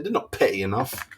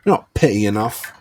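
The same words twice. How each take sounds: First: Said in the usual way. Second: "They're not petty enough" hit louder, pushing the point home; louder emphatic repeat. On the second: Shown as a demonstration. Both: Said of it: "repeated for emphasis".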